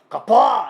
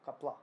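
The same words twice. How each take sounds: First: The word is pushed outward, clearly projected. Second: The word is held back, swallowed inward. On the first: The speaker calls it right. "Em vez de falar pra fora" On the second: The speaker calls it wrong. "eles falam capá"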